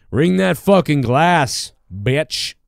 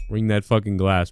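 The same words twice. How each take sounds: First: Slow and loud, leaning on fucking; louder slow repeat. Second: Said in the usual way. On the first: Shown as a demonstration. Host hamming up his own catchphrase, slow and loud. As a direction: drag it out and punch fucking. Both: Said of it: "repeated louder".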